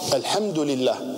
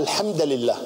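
First: The word al-hamd ends with an u vowel. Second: The word al-hamd ends with another vowel. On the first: The speaker calls it right. "هي الحمد بالضم" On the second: The speaker calls it wrong. "لكن هو قرأ الحمد لله، هنا خطأ"

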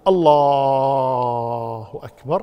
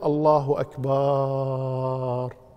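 First: The l sound in the first word is drawn out. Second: The vowel after the b is drawn out. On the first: The meaning is not changed. "لو مد لفظ الجلالة اللام في لفظ الجلالة ما يضر" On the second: It turns the word into one meaning drums. "ولا يجوز أن يقول الله أكبر يمد الباء"

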